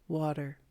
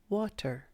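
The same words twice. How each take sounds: First: The middle consonant is a soft D-like tap. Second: The middle consonant is a crisp T. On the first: "This is a soft D sound, as in water" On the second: "instead of water"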